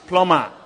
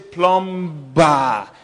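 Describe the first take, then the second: First: No B sound is pronounced in the word. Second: A B sound is pronounced in the word. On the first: The speaker calls it right. "It is plumber. All right? The beast silent" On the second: The speaker calls it wrong. "You don't say plumber"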